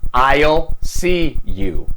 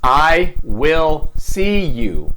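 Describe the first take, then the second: First: Will is shortened and joined to the pronoun. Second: Will is said as a full separate word.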